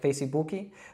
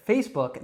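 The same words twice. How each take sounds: First: Extra vowels follow face and the k. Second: No extra vowels follow face or the k. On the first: The speaker calls it wrong. "I believe in Brazil, they'll say it like Facebook. So that's like a completely different pronunciation" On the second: The speaker calls it right. "then you got it right. Now, we don't pronounce, again, the E at the end of face. We don't make any extra sounds after the K"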